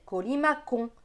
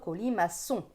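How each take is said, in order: First: The middle c is said as a hard k. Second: The middle c is said as a soft s. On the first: The word is read without its cedilla. The speaker calls it wrong. "si on n'avait pas mis la cédille en dessous, le mot colimaçon se prononcerait colimacon" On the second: The word is read with its cedilla. The speaker calls it right. "on veut colimaçon"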